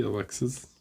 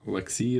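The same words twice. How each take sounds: First: "Alexis" with the final s sounded; name corrected. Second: "Alexi" with the final s dropped; name said wrong. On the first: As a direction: finish "Alexis" with a clear s. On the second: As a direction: say "Alexi", ending on the vowel. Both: Shown as a demonstration.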